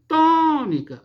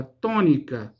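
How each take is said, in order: First: "Tônica" chamado alto e agudo, com o "TÔ" esticado; chamamento com sílaba tônica forte. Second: Said in the usual way. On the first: Shown as a demonstration. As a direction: prolongar e elevar o "tô" de "Tônica". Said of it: "o T e o O". ("Tônica" em chamamento, força na primeira sílaba "tô") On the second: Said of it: "por exemplo, a palavra tônica".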